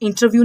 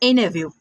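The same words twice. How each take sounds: First: The t after the n is clearly pronounced. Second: The t is silent, blending into the n. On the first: The speaker calls it wrong. "But हम गलत बोलते हैं, इंटरव्यू नहीं होता" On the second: The speaker calls it right. "इंटरव्यू होता है"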